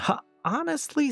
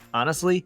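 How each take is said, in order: First: The h at the start is pronounced. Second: The h at the start is silent.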